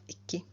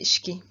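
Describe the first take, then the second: First: A plain k sound, with no sh. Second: An sh sound comes before the k. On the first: This is the standard form. "instead of iki" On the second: This is the casual spoken form. "in speaking, sometimes you just say ishki"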